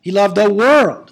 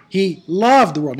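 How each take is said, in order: First: Loud, slow line peaking on WORLD; stress on WORLD. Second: LOVED drawn out and punched; stress on LOVED. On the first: Teacher mimicking a later Sunday's sermon text, stress on WORLD. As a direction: build to a big, punched world. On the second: Teacher mimicking next Sunday's sermon text, stress on LOVED. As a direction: lean slowly on the word loved. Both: Shown as a demonstration. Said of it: "let's just emphasize each word".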